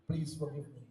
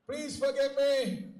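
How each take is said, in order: First: Low, much softer begging; humbled warrior begging the Lord; broken plea. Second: Said in the usual way. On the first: Acted. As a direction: crumble as you beg forgiveness. Parshuram kneels before the Lord.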